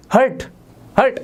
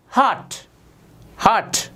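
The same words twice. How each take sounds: First: हर्ट as hurt, short uh; short vowel in हर्ट; wrong pronunciation. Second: हार्ट as haat, long aa; silent r. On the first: Teacher mimicking students' wrong answer, hurt-like हर्ट. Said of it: "नहीं, नहीं, नहीं". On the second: Teacher modelling British-style pronunciation, r-less haat for हार्ट. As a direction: drop the r in हार्ट. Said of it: "आर silent होता है". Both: Shown as a demonstration.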